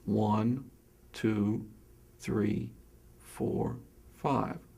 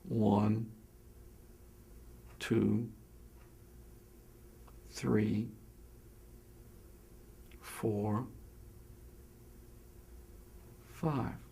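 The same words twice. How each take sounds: First: The counting is at a normal pace. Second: The counting is slowest, with the longest gaps.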